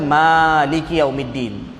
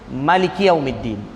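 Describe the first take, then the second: First: The first vowel of maliki is drawn out long. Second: The first vowel of maliki is kept short. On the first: This is the usual reading of one recitation tradition. "kita baca maliki yaumiddin" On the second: This is the reading of another recitation tradition. "tak panjang"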